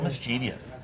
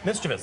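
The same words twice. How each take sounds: First: It is said with four syllables. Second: It is said with three syllables. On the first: The speaker calls it wrong. "And that changes the number of syllables, too" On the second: The speaker calls it right. "It's only three syllables"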